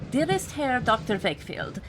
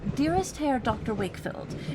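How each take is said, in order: First: It is read in a put-on foreign accent. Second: It is read in his plain, normal voice.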